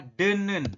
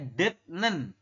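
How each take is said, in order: First: No t sound is heard before the n. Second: A t sound is heard before the n. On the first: The speaker calls it right. "Tapi dibacanya adalah denen" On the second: The speaker calls it wrong. "Ini kurang tepat"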